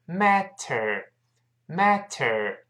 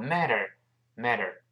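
First: "matter" very slowly with a full t; slow, careful "matter" with the t released. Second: "matter" said quickly with a softened t; quick, light flapped t in "matter"; quicker reading. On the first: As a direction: sound out "mat-ter" in slow motion. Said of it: "读非常慢是matter". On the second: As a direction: run "matter" together as "madder". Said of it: "读快之后matter". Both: Shown as a demonstration.

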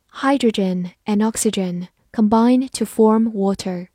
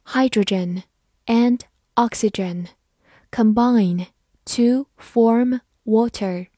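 First: Said in the usual way. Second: "Hydrogen and oxygen combine to form water" in slow, separated words; slow reading. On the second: Shown as a demonstration. Teacher reads the sentence for learners to follow, slow reading. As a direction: pause between words, giving "to form water" room. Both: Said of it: "好，慢慢来读".

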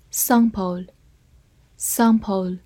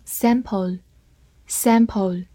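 First: Sample with a long open "ah" as in father; British pronunciation. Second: Sample with the short flat "a" of cat; American pronunciation. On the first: Teacher reading out a vocabulary word, British pronunciation of sample with "ah". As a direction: say sample the British way, broad "sahm-pul". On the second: Teacher giving the alternative reading to learners, American pronunciation of sample. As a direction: say sample the American way, "sam-pul". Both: Shown as a demonstration. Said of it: "或者美式发音".

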